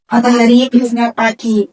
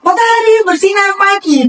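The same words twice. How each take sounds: First: It is read in a gloomy, sad tone. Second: It is read in a cheerful, happy tone. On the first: The speaker calls it wrong. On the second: The speaker calls it right. "jadi harus"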